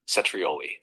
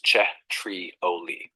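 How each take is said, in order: First: Said in the usual way. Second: "Cetrioli" drawn out syllable by syllable, very slow; teacher slowly modelling "Cetrioli"; slow model pronunciation. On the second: Shown as a demonstration. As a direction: stretch out "Cetrioli" as a model word, che-tri-O-li. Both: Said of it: "It's pronounced like this".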